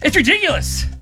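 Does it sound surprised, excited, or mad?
excited. It is said in an excited way.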